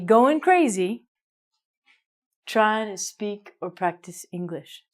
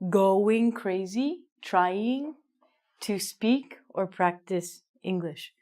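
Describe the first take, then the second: First: The G at the end of going is dropped. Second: The G at the end of going is pronounced. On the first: This is how it sounds in slang or everyday speech. "in slang or in regular speech, we say" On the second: This is the careful, proper way to say it. "probably you should say"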